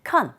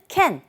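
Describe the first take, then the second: First: The word has an o-like vowel. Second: The word has a full a vowel. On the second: "여기서는 can, 큰, con 이런 식으로 세 가지 방법으로"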